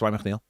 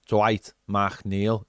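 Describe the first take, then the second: First: The name is said quickly and run together. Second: The name is said slowly and carefully. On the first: The speaker calls it right. "it's how quickly you can say that name" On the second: The speaker calls it wrong. "We don't go"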